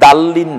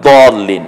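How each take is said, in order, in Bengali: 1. প্রথম ব্যঞ্জনটি সাধারণ, হালকা 'd'। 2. প্রথম ব্যঞ্জনটি ভারী, জোরালো 'd'। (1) "আপনি দাল্লিন না" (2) "হবে দলিন"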